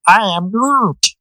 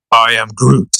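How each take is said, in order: First: Higher and very slow, drawn-out Groot; young Groot voice. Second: Groot voice. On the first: Host retries the Groot line for his co-host, higher and very slow. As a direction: stretch each word out up high like baby Groot. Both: Shown as a demonstration. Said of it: "I can't do the fucking young Groot voice".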